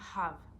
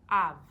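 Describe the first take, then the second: First: The word begins with an audible h sound. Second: The word begins directly on the vowel, no h. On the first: The speaker calls it right. "Instead of saying have" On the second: The speaker calls it wrong. "You're skipping the H and you're pronouncing the A"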